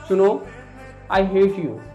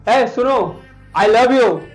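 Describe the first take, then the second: First: It is said in a loving tone. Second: It is said in an angry tone.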